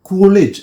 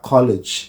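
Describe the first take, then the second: First: The vowel is a closed, puffed oo sound. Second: The vowel is an open o sound. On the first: The speaker calls it wrong. "കൂളേജ് അല്ല" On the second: The speaker calls it right. "ഓ തുറന്ന വായുവിൽ കൂടിയാണ്"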